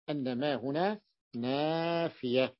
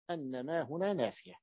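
First: Slow, word by word, "أن ما هنا نافية"; slow emphatic repeat. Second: Said in the usual way. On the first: Shown as a demonstration. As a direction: drag out "نافية" so it sinks in. (ببطء وتأكيد على "نافية") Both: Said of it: "لاحظتم بأن البيت المعنى هو نافية".

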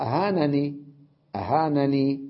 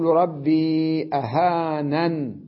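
First: أهانني with an audible final ee; original form. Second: Slow recitation, أهانن closed on n; stop on n. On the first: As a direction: end أهانني openly on ee. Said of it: "أصلها". (الأصل بإثبات الياء) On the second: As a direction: stretch ربي, end أهانن without ee. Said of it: "ووقف على النون بالسكون". (ترتيل مع حذف الياء) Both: Shown as a demonstration.

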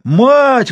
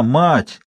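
First: Sudden high, loud scream; long high-pitched old man's cry; desperate yell. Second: Restrained first call from the dark; old man's weary summons. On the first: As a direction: bellow desperately for help. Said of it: "вдруг заорал он отчаянно". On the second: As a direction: call out without yet shouting. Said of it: "голос старика". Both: A narrator's reading.

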